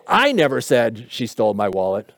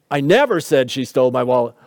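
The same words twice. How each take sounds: First: The first word I stressed, the rest lower and softer. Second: NEVER stressed, the rest lower. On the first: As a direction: put the weight on I. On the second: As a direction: hit the word NEVER. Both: Shown as a demonstration. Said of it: "even just sometimes in the words we emphasize".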